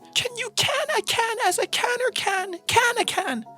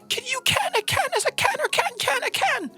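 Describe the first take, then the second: First: It is read slowly and carefully. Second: It is read at normal quick speed.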